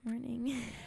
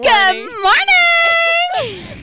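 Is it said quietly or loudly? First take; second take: quietly; loudly. First: It is said fairly quietly. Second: It is said loudly.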